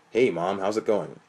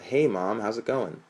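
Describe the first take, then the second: First: The voice is pitched very deep and low. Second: The voice is at its normal pitch.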